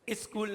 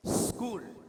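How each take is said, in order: First: "स्कूल" said as iskool; vowel-led s in "स्कूल"; wrong pronunciation. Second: "स्कूल" with a bare s at the front; no i before "स्कूल"; correct pronunciation. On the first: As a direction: put a short i before "स्कूल". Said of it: "नहीं है". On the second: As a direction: hold the s, then kool, for "स्कूल". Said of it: "ये तरीका है". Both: Shown as a demonstration.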